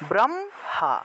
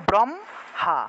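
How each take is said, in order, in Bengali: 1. ম প্রথম অক্ষরের সাথে যুক্ত হয়ে উচ্চারিত হয়। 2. ম প্রথম অক্ষরের সাথে যুক্ত হয়ে উচ্চারিত হয়।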